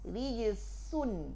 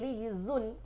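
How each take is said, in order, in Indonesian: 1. Konsonan itu adalah s desis yang tak bersuara. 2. Konsonan itu adalah z dengung yang bersuara. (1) "datang kita datangkan hams. Rijisun jadinya" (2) "Tidak lagi rijizun"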